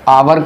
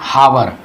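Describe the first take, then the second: First: The word begins directly with a vowel sound. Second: The word begins with an h sound. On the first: The speaker calls it right. "आवर का होता है, ये होता है आ" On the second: The speaker calls it wrong. "बहुत से लोग इसको एच ओ यू आर को इसको पढ़ते हैं हावर, ये गलत है।"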